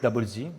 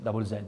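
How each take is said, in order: First: The name is said without an Australian pronunciation. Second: The name is said with an Australian English pronunciation. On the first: "we call it double Z" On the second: "maybe in, uh, in Australian English"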